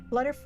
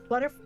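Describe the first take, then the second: Both takes have the same delivery.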